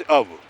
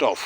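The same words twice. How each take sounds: First: अब for "of", voiced ending; taught pronunciation of "of". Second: "of" with an f ending; hard f closing "of"; rejected pronunciation. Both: Shown as a demonstration. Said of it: "It is not of".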